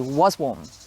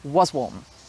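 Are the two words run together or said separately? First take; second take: run together; run together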